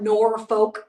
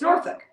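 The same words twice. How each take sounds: First: It is said the way outsiders pronounce it. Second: It is said the way locals pronounce it. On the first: The speaker calls it wrong. "Norfolk is not Norfolk" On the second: The speaker calls it right. "It's Norfolk"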